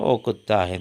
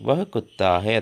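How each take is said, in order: First: The first word is reduced to a short 'o'. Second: The first word is said in full as 'vah'.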